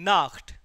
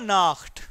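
The two takes are said the same way.

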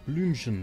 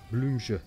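First: The word ends clearly with an n sound. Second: The word is slurred and ends without the n. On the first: "Ich sag mal Blümchen" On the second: "Das soll so verschliffen"

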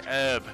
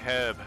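First: The word starts without an h sound. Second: The word starts with an audible h sound. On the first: This is how Americans say it. The speaker calls it wrong. "you Americans say herb" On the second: This is how the speaker's own group says it. The speaker calls it right. "we say herb because there's a fucking H in it"

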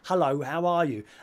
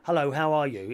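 First: It is spoken slowly with exaggerated mouth movements. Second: It is spoken at a normal pace and articulation. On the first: The listener is assumed to be lip reading. "If I knew you were deaf, I might say" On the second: The listener is assumed to hear normally. "Like, I'm speaking to you now. I could say"

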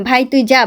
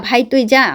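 No difference in how they are said.

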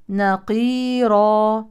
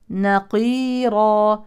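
Both takes have the same delivery.

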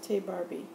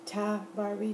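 First: The first word is said like 'tay'. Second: The first word is said like 'tah'. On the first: The speaker calls it wrong. "I'm sorry for mispronouncing her name" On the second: The speaker calls it right. "T-A-H Barbie"

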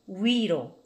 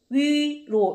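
First: The first vowel glides from one vowel sound into another. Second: The first vowel is one steady, pure vowel. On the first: This is the way most people say it now. "오히려 지금 제가 두 번째 한 것처럼" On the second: Few people say it this way nowadays. "요즘은 위로 이렇게 발음하시는 분들 별로 없어요"

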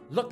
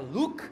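First: The vowel is a short, lax u sound. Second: The vowel is a tense Portuguese u sound. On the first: It means seems or appears. The speaker calls it right. "look é com a ferradura de cavalo" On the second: It turns into a different word. The speaker calls it wrong. "falar com o u do português e falar look"

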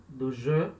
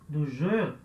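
No difference in how they are said.

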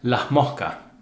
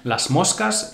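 First: The s sounds are pronounced as breathy h. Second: The s sounds are pronounced as clear s. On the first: "would become here in the Canary Islands" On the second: "in standard Spanish"

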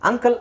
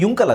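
First: The word begins with an 'ah' vowel sound. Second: The word begins with a 'yu' sound. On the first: The speaker calls it right. "ಆ ತಾನೇ ಬರೋದು" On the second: The speaker calls it wrong. "ಯು ಯು ಅಂತ ಹೇಳೋದಾದರೆ ಇದು ಯುಂಕಲ್ ಆಗಬೇಕು"

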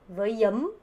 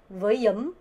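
Both takes have the same delivery.

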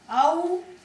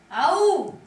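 First: The shout is weak and fairly quiet. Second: The shout is louder and stronger. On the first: "Не соромся, голосніше" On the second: "голосніше"

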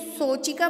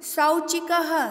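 First: The first vowel is a plain o sound. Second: The first vowel is an au glide. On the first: The speaker calls it wrong. "यदि मैं इसको सोचिका पढ़ूंगी तो भी वो अशुद्ध माना जाएगा" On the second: The speaker calls it right. "तो हमें सौ इसका उच्चारण करना पड़ेगा"

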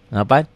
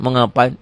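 First: It sounds friendly and pleasant. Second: It sounds annoyed and curt.

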